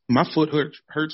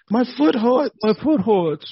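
First: It is said in a normal adult voice. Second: It is said in a whiny childlike voice. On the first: "I almost said that like a little kid" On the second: "like a little kid, you know, like, hurts"

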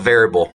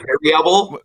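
First: The syllables are run together in a casual way. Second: Every syllable is pronounced carefully and distinctly.

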